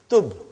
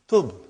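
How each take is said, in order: First: The word ends sharply on the b sound. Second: The same.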